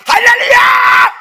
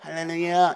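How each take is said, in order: First: It is said loudly with the mouth wide. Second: It is said quietly with little energy.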